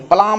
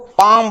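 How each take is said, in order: First: The word is said with an L sound. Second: The word is said without an L sound. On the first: The speaker calls it wrong. "पलाम नहीं बोलेंगे" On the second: The speaker calls it right. "इसको पाम बोलेंगे"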